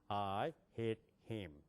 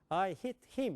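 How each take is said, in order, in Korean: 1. 영어식이에요, 배 깊은 곳에서 소리가 나요. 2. 한국식이에요, 목에서 소리가 나요.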